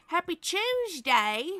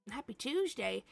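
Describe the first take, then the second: First: Drawn out, lifted Happy Tuesday; cheerfully correcting the greeting for a viewer in Australia; cheerful correction. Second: Said in the usual way. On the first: Shown as a demonstration. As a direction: correct it brightly, stretching Tuesday.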